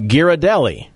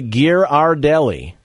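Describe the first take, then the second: First: "Ghirardelli" with an unstressed "uh" second syllable; common Ghirardelli pronunciation. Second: "Ghirardelli" as gear-ar-DELLY; corrected Ghirardelli pronunciation. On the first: Host quizzing co-host on a brownie brand, common pronunciation. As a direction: say "Ghirardelli" as gear-uh-DELLY. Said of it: "Is me saying Ghirardelli correct?". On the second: Host correcting co-host on a brownie brand, corrected pronunciation. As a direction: sound a full "ar" in the middle of "Ghirardelli". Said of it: "It is actually Ghirardelli". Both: Shown as a demonstration.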